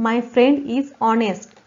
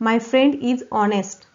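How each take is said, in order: The two takes are said the same way.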